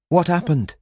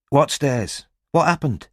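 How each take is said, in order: First: Higher, pressing female voice; concerned woman voice. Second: Eager woman voice. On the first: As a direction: Robin asking again. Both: A narrator's reading. Robin voiced.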